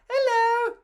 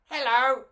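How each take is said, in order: First: High, thin alien hello; bad alien voice. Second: A slightly higher alien hello; better alien voice. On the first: Mama G voicing her alien friend badly, high. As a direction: try a squeaky alien greeting. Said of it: "That's not a very good alien voice". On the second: Mama G redoing the alien hello, a touch higher. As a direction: try the alien greeting again. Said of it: "Oh, that's better". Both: Shown as a demonstration.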